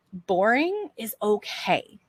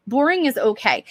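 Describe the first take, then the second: First: Much softer, slow "boring is okay". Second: Said in the usual way. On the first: Shown as a demonstration. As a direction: let "boring is okay" sink in quietly and slowly.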